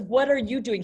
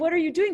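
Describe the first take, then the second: First: It is said in an angry tone. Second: It is said in an interested, curious tone. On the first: The speaker is upset about what the other person is doing. "He's angry" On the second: The speaker genuinely wants to know what the other person is doing. "Because she wants to know. She's interested"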